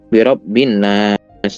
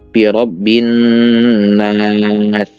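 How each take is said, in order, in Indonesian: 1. Bunyi nasal n dipotong pendek. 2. Bunyi nasal n ditahan lama. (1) "ini juga nggak ditahan. ... Biasanya birabbin nas" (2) "padahal ada gunnahnya. Birabbin nas seperti itu"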